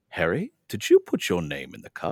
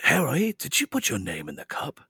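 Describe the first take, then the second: First: It is said in a calm, quiet voice. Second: It is said in a put-on character voice. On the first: "he says specifically real calmly" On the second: "that is my Dumbledore"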